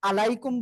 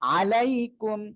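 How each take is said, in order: First: The first vowel starts plainly, without throat tension. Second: The first sound is squeezed tightly in the throat. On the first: The speaker calls it wrong. "আলাইকুম বললে ভুল" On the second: The speaker calls it right. "আইনটা গলাটা চেপে পড়তে হবে"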